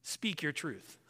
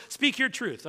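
First: A soft, low mock of the slogan society repeats; quoting a slogan. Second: A raised, incredulous mock of the slogan. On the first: Preacher quoting society's slogan to the congregation, soft and dismissive. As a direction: toss off the slogan quietly, half-dismissive. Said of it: "society today will tell you". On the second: Preacher asks if the church has heard it, mocking. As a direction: lift it up as if it's absurd. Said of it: "have you heard that before".

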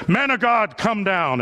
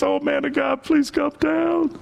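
First: Lightly voiced commander's order; a firm, evenly pressed military command, a touch put on; militaristic commander. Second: High, slowed-down begging; timid pleading. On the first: Commander orders Elijah off the mountain, mildly militaristic. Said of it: "in his deep militaristic voice". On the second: Acted. Third commander kneels before Elijah, begging meekly. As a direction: plead in a high, small voice, dragging out the words. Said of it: "He doesn't speak in a big voice".

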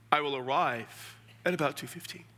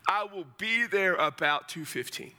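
First: Lightly stiff, formal answer; mock formal reply. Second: Everyday conversational answer; casual reply. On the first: Replying over-formally to a game invite, mock formal. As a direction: answer a friend too formally. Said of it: "I'm not gonna be formal". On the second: Acted. Accepting an invite to watch the game, casual. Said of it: "It's casual".

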